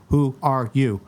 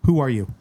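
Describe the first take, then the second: First: WHO ARE YOU spaced out word by word; "Who are you" drawn out for someone who didn't get it; deliberate repeat. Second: Said in the usual way. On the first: Retold or imitated. Repeats it after a puzzled "what.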